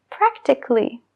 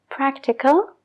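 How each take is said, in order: First: "practically" as prak-tik-ly, no A; a dropped. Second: "Practical" with the A spoken, prak-ti-kal; a sounded. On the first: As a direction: drop the A in "practically". ("practically" sin la A) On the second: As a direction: keep the A in "Practical". ("Practical" con la A) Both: Shown as a demonstration. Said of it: "letras inertes".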